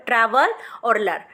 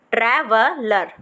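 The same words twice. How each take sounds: First: ट्रैवल और लर as two chunks; split into parts. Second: ट्रैवलर joined as one word, slowly. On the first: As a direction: break the word in two. (टुकड़ों में बोलो) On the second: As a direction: put the pieces back together. (जोड़कर धीरे से) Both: Shown as a demonstration. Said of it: "पहले आप पूरी ट्रैवल ल- लर्न करो".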